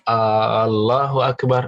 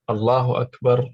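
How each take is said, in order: First: The first vowel of Allahu is drawn out long. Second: The first vowel of Allahu is short. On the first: It asks whether God is the greatest. The speaker calls it wrong. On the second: It is a statement that God is the greatest. The speaker calls it right.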